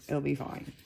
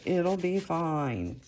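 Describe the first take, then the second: First: Said in the usual way. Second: Slow self-reassuring "It'll be fine"; slow reassurance. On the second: Real, not acted. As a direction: talk yourself calm, slowly. Reassures herself tearing paper.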